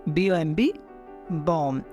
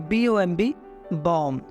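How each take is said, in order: Both takes have the same delivery.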